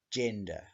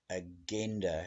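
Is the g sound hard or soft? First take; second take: soft; hard. First: The g is soft, as in jam. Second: The g is hard, as in get. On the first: This is the changed modern way to say it. The speaker calls it wrong. "changed to agenda" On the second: This is the original way to say it. The speaker calls it right. "agenda has been changed"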